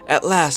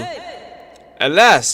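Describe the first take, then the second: First: It is said in a natural, relaxed voice. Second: It is said in a put-on feminine voice. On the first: "the tone I use when I'm not focusing" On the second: "a strong feminine voice"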